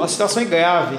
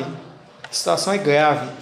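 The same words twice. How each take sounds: First: Said in the usual way. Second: Grave and heavy. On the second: Shown as a demonstration. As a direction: let it sink low and heavy.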